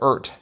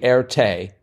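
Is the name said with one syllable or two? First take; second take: one; two. First: The name is said with one syllable. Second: The name is said with two syllables. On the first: The speaker calls it wrong. "we were I think going for ert" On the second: The speaker calls it right. "the French pronunciation of the R and T, roughly Erte"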